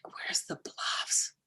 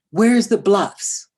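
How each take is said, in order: First: Slow, breathless whispered echo; a mother hearing her son is lost, whispering in shock; stunned whisper. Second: Loud, slow, drawn-out panicked question; a son on the phone, loud and desperate; lost son's plea. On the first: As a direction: repeat it in disbelief under your breath. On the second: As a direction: call out like a teenager lost and scared. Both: Retold or imitated.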